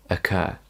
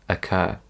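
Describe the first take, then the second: No difference in how they are said.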